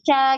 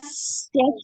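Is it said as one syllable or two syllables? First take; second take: one syllable; two syllables. First: It is one syllable with a sh-like sound. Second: It is split into two syllables, si-a. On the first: The speaker calls it right. "sya gitu ya" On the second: The speaker calls it wrong. "Jadi bukan sia"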